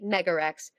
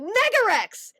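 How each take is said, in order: First: The name is said plainly, with little energy. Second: The name is said loudly, with big energy. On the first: It leaves the crowd unmoved. "if I say" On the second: It tells the crowd to get excited. "if I go Megarex, like it is this psychology that I'm telling them get hyped about it"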